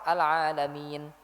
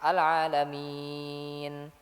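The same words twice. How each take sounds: First: The long vowel is held for two beats. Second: The long vowel is held for four beats. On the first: "kalau dua harokat" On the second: "empat harokat"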